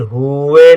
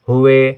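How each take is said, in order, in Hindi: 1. पहला स्वर खींचकर लंबा बोला जाता है। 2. पहला स्वर केवल थोड़ी देर के लिए बोला जाता है। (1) "यदि हुए होता तो बड़े ऊ की मात्रा होती" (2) "हुए कम देर के लिए है"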